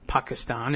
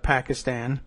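First: The name is said in a native-like way. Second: The name is said in an anglicized way. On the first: The speaker calls it right. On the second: The speaker calls it wrong.

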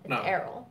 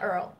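First: The name is said as two syllables. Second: The name is said as one syllable. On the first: The speaker calls it right. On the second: The speaker calls it wrong. "A lot of people say Earl. It's not Earl"

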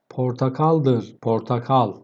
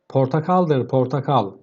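First: The line is read at a slower pace. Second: The line is read at a faster pace.

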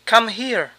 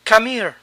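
First: The h at the start of 'here' is pronounced. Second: The h at the start of 'here' is dropped. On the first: "es probable que usemos las palabras correctas" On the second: "Simplemente la H no se pronuncia"

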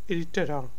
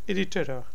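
First: The final n sound is dropped. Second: The final n sound is dropped.

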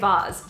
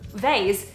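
First: Vase is said with an Australian vowel. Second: Vase is said with an American vowel. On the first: "That was how I used to say it" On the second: "the American way?"

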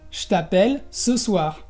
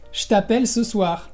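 First: The vowel in je is dropped. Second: The same.

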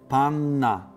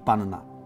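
First: A single lengthened n sound is heard. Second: Two separate n sounds are heard. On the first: The speaker calls it right. "jedno N, ale przedłużone" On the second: The speaker calls it wrong. "a nie"

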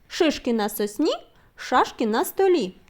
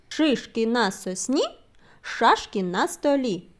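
First: The phrase is said at a very fast pace. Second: The phrase is said at a fast pace. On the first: "І ще швидше" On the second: "А тепер швидше повторимо"

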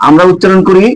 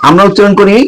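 The two takes are said the same way.

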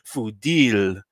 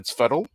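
First: The name ends with a full 'deel' sound. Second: The name ends with a reduced 'dle' sound. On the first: This is the traditional pronunciation of the name. The speaker calls it right. "he won't even pronounce it properly. Fudil" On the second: This is how the name's bearer chooses to say it. The speaker calls it wrong. "For him, it's Fuddle"

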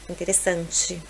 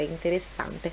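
First: The word ends in a 'tchi' sound. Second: The word ends in a plain 'te' sound. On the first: The speaker calls it wrong. "não vai ser nunca interessante" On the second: The speaker calls it right. "o T final é sempre pronunciado como TE"

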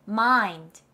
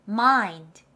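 The two takes are said the same way.

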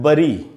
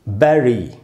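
First: The first vowel sounds like 'uh'. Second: The first vowel sounds like 'eh'. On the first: The speaker calls it wrong. "कुछ लोग इसको पढ़ते हैं बरी" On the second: The speaker calls it right. "इसका शुद्ध उच्चारण है बैरी"

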